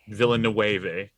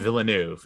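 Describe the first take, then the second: First: The name is said with a Spanish-sounding pronunciation. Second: The name is said with a French-sounding pronunciation. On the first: The speaker calls it wrong. "not Villanueve" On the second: The speaker calls it right. "His name is Villeneuve"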